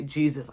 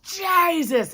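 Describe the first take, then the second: First: Low, soft, held-back word; failed attempt to speak. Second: High, drawn-out burst of a cry; last-breath cry. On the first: Paralyzed woman trying to call on Jesus, low and stifled. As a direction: say it small, as if it won't come out. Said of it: "I cannot even say Jesus". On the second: Retold or imitated. Woman breaking free of paralysis, crying out high. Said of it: "And that last breath".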